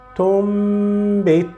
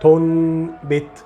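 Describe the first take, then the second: First: The nasal before b is an m sound. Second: The nasal before b is an n sound. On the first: The speaker calls it right. "I will not pronounce noon, but I will pronounce meme" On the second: The speaker calls it wrong. "the wrong pronunciation is saying tonbit"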